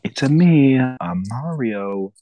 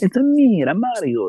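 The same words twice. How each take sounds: First: Put-on loud start sagging to a slow, accentless finish; mock a half-hearted attempt at the catchphrase; Chris Pratt as Mario. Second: Very high, loud cartoon Italian accent; Mario's Italian accent. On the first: Mocking the movie actor's Mario, no real Italian accent. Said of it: "Chris Pratt literally was like". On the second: Showing friend how it should sound, high Italian accent. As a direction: squeal it like an excited Italian game mascot. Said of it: "that's how it's supposed to be".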